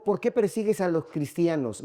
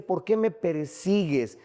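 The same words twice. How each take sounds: First: Said in the usual way. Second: "me persigues" drawn out slowly; slow down and weight "me persigues"; stress on "me persigues". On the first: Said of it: "No le dijo". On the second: Retold or imitated. Preacher correcting the quote for the congregation, stressing "me persigues". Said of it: "Me dice".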